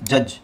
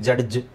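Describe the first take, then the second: First: The d before the j is silent. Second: The d before the j is sounded. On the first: The speaker calls it right. "ಡಿ G E ಅಂತ ಬಂದರೆ ಡಿ silent ಆಗಿರುತ್ತೆ" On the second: The speaker calls it wrong. "ನಾವು ಹೇಳ್ತೀವಿ ಕನ್ನಡದಲ್ಲಿ"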